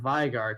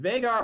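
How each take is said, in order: First: The first vowel follows a Germanic reading. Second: The first vowel follows an American reading. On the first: "a Germanic spelling where the I is enunciated" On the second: "in American pronunciation terms rather than German"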